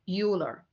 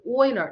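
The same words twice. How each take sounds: First: The name is said with English vowel sounds. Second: The name is said with German vowel sounds. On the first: The speaker calls it wrong. "not Euler" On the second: The speaker calls it right. "the pronunciation is Euler ... It's a Germany"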